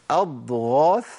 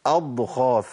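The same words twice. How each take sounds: First: "أضغاث" with a voiced غ; correct voiced ghain. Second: "أضغاث" said as "أضخاث"; ghain turned kha. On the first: ("أضغاث" بغين مجهورة) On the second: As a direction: breathe the غ of "أضغاث" into خ. ("أضغاث" بخاء بدل الغين) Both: Shown as a demonstration. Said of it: "ما ينفعش أقول".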